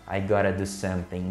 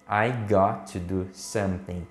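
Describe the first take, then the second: First: 'Got to' is blended into one word, 'gotta'. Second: 'Got' and 'to' are said as separate words.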